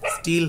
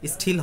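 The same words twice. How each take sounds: First: The t is soft and unaspirated, without a puff. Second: The t is strongly aspirated, with a puff. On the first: The speaker calls it right. "সাধারণ হবে, still হবে, নরম হবে" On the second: The speaker calls it wrong. "এটা উচ্চারণ ঠ এর মতো হবে না, স্টিল হবে না"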